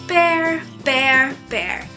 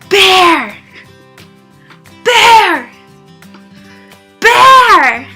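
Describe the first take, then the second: First: It is said flatly, without energy. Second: It is said energetically, with passion.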